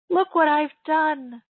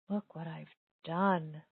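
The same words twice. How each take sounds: First: It is said with a proud tone. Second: It is said with a regretful tone.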